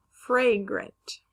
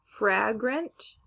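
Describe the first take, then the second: First: "fragrant" as FRAY-grunt, falling; long A. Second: "fragrant" as FRAG-runt, rising; short A. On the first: Teacher trying both sounds, "fragrant" as fray-grunt. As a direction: say "fragrant" with the a of day. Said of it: "the word is fragrant". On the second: Teacher trying both sounds, "fragrant" as frag-runt. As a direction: say "fragrant" with the a of cat. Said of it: "it can sound like A or". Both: Shown as a demonstration.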